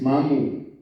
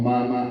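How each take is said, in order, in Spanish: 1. La palabra termina en la vocal u. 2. La palabra termina en la vocal a. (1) "es mamu" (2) "también están mal, oímos muy mal"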